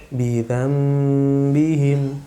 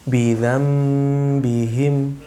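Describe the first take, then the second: No difference in how they are said.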